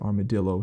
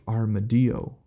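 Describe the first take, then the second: First: The double L is said as an L sound. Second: The double L is said as a Y sound. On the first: This is the usual Western pronunciation. "we say armadillo here in the in Western culture" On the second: This is the original Spanish pronunciation. "I assume that it is actually pronounced armadillo"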